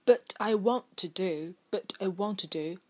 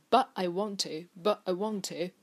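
First: "but I want to do" with the t of "but" sounded; released t. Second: "but I want to" with glottal stop in "but"; swallowed t. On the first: Teacher gives a phrase example, t clearly said in "but". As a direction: pronounce the t in "but" before "I". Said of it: "一般我们不会说but". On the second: Teacher shows how we usually say it, glottal "but". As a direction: drop the t of "but" before "I". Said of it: "我们会说". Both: Shown as a demonstration.

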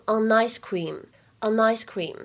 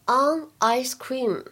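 First: "on ice cream" with on's n carried into ice; linked reading. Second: Said in the usual way. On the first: Shown as a demonstration. Teacher demonstrates linking, "on ice cream" joined as o-nice cream. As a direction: run "on ice" together as "o-nice" before cream. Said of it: "前两个当中有连读". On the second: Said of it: "在这三个单词的处理上呢".

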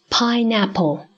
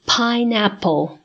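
First: Said in the usual way. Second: Pineapple said slowly, syllable by syllable; teacher slowing pineapple down; slow model word. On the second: Shown as a demonstration. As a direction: stretch pineapple out for the class. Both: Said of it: "下面我们来学菠萝这个单词".

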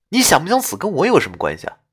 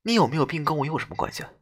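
First: Fast, impatient ghost voice; brisk half-laughing retort; exasperated ghost. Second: Quiet fast cold female ghost; softer icy grumble; cold, complaining ghost. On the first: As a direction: rattle it off, amused and fed up. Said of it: "哭笑不得地说道". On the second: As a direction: toss it off coldly, a bit annoyed. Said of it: "她语气冰冷，似乎还带有一丝抱怨". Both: Acted.

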